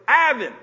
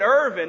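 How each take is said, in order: First: The first vowel is an open a, no r. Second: The first vowel has a clear r sound. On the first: "in the Ugandan accent, you know, British accent, hey, they struggle with, you know, the IR part" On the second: "it wasn't Irvin"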